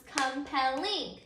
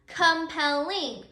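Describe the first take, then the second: First: Said in the usual way. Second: Slow "compelling" in separate syllables, com-pel-LING; stress on ING. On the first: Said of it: "let's say that word together". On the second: Shown as a demonstration. Teacher leading class in saying the word, slow syllable stress. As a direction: draw out "compelling", landing firmly on the final ing. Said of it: "your accented syllable is ing".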